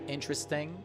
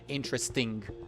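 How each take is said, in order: First: It ends in a plain ng with no g. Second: It ends in ng followed by an audible g. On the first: The speaker calls it right. "the ng sound, like interesting. Like interesting was good" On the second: The speaker calls it wrong. "there might be the audible g sound at the end"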